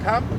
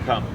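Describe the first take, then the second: First: The word is called on a high pitch. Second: The word is called on a low pitch. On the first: It carries over background noise. The speaker calls it right. "you also want to use an up note" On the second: It gets lost in background noise. The speaker calls it wrong. "lower doesn't carry over noise"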